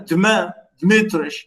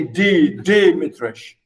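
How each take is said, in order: First: Dmitrich with D and M run together, no vowel between; Russian consonant cluster. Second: Dimitrich with a vowel between D and M, DEE-mi-trich; vowel after D. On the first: Lecturer showing the Russian cluster, Dmitrich as DMEE-trich. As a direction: start Dmitrich straight on a joined "dm". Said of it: "in Russian, this is, this is okay". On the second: Lecturer showing the English-friendly form, Dimitrich as DEE-mi-trich. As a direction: open Dimitrich on a clear, stressed "dee". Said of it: "that's why you say". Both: Shown as a demonstration.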